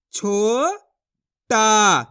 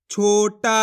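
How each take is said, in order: First: छोटा split slowly into छो and टा; syllable by syllable. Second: Said in the usual way. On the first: Shown as a demonstration. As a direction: break छोटा into its parts, slowly. (छोटा को अक्षर जोड़कर धीरे बोलो) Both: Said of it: "तो मिलके बन जाएगा".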